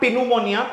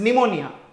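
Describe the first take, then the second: First: The word begins with a spoken p sound. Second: The word begins directly with an n sound. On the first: The speaker calls it wrong. "This is not पिनुमोनिया" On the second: The speaker calls it right. "This is निमोनिया"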